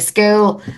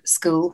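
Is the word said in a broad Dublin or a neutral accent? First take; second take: broad Dublin; neutral. First: It is said in a broad North Dublin accent. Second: It is said in a more neutral accent.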